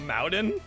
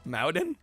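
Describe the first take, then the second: First: Mountain is said in an imitated, unusual pronunciation. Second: The same.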